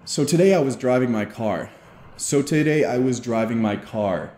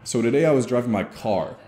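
First: "So today I was driving my car." said level, no rise or drop at the end; even tone. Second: "So today I was driving my car." with the pitch dropping off on "car"; falling tone. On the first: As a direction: keep every word even, flat to the end. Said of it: "So it'd be something like". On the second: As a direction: let "car" fall down with authority. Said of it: "So it would be something like". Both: Shown as a demonstration.

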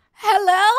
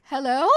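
First: High, raised-voice hello; loud calling out. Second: Said in the usual way. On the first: Real, not acted. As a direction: call out loudly to whoever is there. Calls out again, louder.

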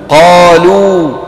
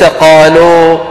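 First: قالوا ending in a long pure oo; الواو الصحيحة. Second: قالوا ending in an open 'oh'; واو مخلوطة بالألف. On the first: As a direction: close قالوا on a rounded oo, held long. (قالوا بواو خالصة ممدودة) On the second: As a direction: wrongly open the final و of قالوا to oh. (قالوا بواو مائلة إلى الألف) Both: Shown as a demonstration. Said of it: "وليس قالوا".

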